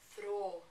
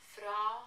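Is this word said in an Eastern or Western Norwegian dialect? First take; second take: Western; Eastern. First: It is said with a Western Norwegian vowel. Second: It is said with an Eastern Norwegian vowel. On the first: "that Western dialect" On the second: "my Eastern dialect"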